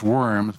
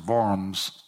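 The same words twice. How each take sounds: First: The name is pronounced with an English pronunciation. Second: The name is pronounced with a German pronunciation.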